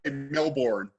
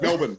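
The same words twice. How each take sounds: First: The R in the second syllable is pronounced. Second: The R in the second syllable is dropped. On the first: The speaker calls it wrong. "you Americans also say Melbourne" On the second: The speaker calls it right. "It's Melbourne"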